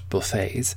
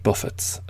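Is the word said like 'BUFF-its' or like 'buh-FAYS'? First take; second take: buh-FAYS; BUFF-its. First: The stress is last, ending like 'ays'. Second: The stress is first, ending like 'its'. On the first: Casual dining options. The speaker calls it wrong. "not buffets" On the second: Blows dealt by the world. The speaker calls it right. "Note that it is pronounced buffets"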